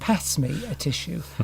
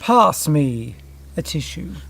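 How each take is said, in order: First: The vowel in pass is short and sharp. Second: The vowel in pass is long and open.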